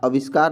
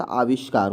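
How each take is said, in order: First: आविष्कार said with a plain s sound, aviskar; आविष्कार with the sibilant softened to s, shown as the wrong form; wrong spelling read out. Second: आविष्कार with a clear sh sound, aavishkaar; आविष्कार said carefully with the sh before k; correct pronunciation. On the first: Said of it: "आविष्कार नहीं होता". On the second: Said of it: "आविष्कार होता है". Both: Shown as a demonstration.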